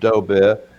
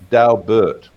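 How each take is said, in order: First: The name is said with a French pronunciation. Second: The name is said with an English pronunciation. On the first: This is how a French speaker would say it. "Being a bit of a Frenchie, I would say" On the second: This is how the family says it. "the Dobert family, they pronounce that Daubert"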